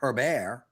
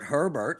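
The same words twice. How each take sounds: First: The name is said the French way. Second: The name is said the ordinary English way. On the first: The name is of French origin. The speaker calls it right. "it's clearly Herbert" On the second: This is how most people say it. The speaker calls it wrong. "everybody calls Justin Herbert Herbert"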